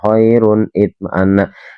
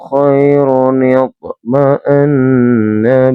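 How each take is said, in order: First: The words stay separate with no linking 'ni'. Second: A short 'ni' sound links the two words. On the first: The speaker calls it wrong. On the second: The speaker calls it right.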